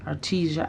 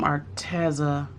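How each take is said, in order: First: "Artesia" said ar-TEE-zhuh, softer; alternative pronunciation. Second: "Arteza" with TEZ in the middle, ar-TEZ-a; first pronunciation. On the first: Vlogger unsure of the brand name, alternative pronunciation. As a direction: try "Artesia" with TEE and a zh sound. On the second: Vlogger announcing her delivery's brand, first pronunciation. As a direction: say "Arteza" with a z sound. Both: Real, not acted. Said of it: "I don't know how to pronounce it".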